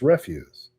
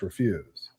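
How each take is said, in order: First: The stress is on the first syllable. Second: The stress is on the second syllable. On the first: It means trash. "if it's trash, it's refuse" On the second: It means saying no. "if you're saying no, it's refuse"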